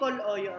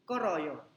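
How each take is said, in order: First: The middle consonant is an L sound. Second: The middle consonant is an R sound. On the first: The speaker calls it wrong. "hindi koloyo ang basa dyan" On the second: The speaker calls it right. "Ang basa, koroyo"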